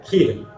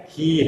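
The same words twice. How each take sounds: First: खीर with a short i, "khir"; short vowel. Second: खीर with a long ī, "kheer"; long vowel. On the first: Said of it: "छोटी की मात्रा है तो". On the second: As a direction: linger a little on the vowel of खीर. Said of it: "थोड़ा सा ठहर के आराम से". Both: Shown as a demonstration.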